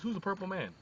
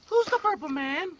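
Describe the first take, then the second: First: Said in the usual way. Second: Put-on high girlish question; Nancy's innocent high-pitched ask; girl's voice. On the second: Nancy asks John the question.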